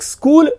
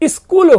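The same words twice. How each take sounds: First: It is said in the standard pronunciation. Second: It is said in a Bihari regional pronunciation. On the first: "एक स्कूल" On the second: "Bihar प्रदेश या किसी और प्रदेश में चले जाएं तो वहां पर स्कूल हो जाता है"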